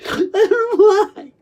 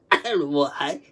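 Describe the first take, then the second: First: High, loud, drawn-out cry; anguished wail. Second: Said in the usual way. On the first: Retold or imitated. Recalling classmates laughing at them, anguished high wail. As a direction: wail it slowly, pitched way up.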